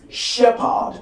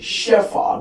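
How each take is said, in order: First: The middle consonant sounds like a p. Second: The middle consonant sounds like an f. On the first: The speaker calls it right. "the right pronunciation is shepherd" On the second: The speaker calls it wrong. "We hear some people pronouncing this word as shepherd"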